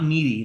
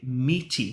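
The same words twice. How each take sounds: First: The middle consonant sounds like a d. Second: The middle consonant is a crisp t sound. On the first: It sounds like something to do with mead wine. The speaker calls it wrong. "not like um like mead wine" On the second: It means having a savory, meat-like quality. The speaker calls it right. "I have to pronunciate meaty"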